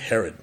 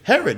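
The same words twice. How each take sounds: First: The name is said with a dark, sneering tone. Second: The name is said in a plain, neutral way. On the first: The person named is viewed as wicked. The speaker calls it right. "you always say Herod. It's always got this negative connotation" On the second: The name carries no judgment. The speaker calls it wrong. "you never say Herod"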